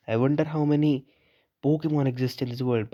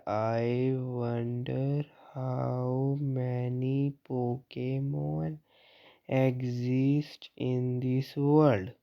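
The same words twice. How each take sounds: First: Drawn-out slow read of the line. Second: Drawn out extremely slowly, word by word; mock very slow N. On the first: Acted. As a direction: read it slowly and evenly. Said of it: "फिर चुप हो गया एकदम ही". (धीमे पढ़ना) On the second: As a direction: stretch every word like N talking. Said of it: "इतनी धीरे बोलता तू एन". (एन की नकल में बहुत धीमा)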